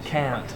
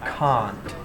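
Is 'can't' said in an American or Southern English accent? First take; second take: American; Southern English. First: It is said with an American accent. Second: It is said with a Southern English accent. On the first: "in American English, they're more like can, can't" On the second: "But for us, the whole vowel is is different"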